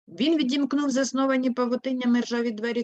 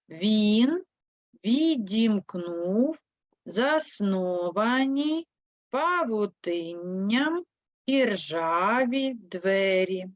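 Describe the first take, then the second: First: It is read quickly and fluently. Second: It is read slowly and carefully. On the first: "прочитаємо текст як сороки" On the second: "Прочитаємо уривок вперше в темпі черепах"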